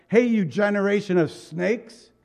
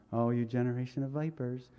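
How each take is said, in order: First: Raised, forceful rebuke; letting them have it. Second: Soft, gentle, polite mock reading; too nicely. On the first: Preacher acting John's rebuke to the leaders, forceful and raised. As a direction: hit them hard with the insult. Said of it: "He let him have it". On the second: Preacher showing how John did not say it, mock-gentle and soft. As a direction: say it sweetly as if it were nice. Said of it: "he didn't say this nicely". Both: Shown as a demonstration.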